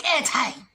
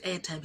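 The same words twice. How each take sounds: First: High, loud soldier's disbelief; mock-outraged, raised-pitch repetition; incredulous echo. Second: Said in the usual way. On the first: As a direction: throw the word back, appalled. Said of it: "He's like". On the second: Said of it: "she says".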